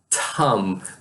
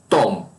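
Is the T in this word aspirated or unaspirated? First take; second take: aspirated; unaspirated. First: The T is released with a puff of air. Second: The T is strong, without a puff of air. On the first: "Ele usa mais ar" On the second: "O nosso T em português, ele é mais forte"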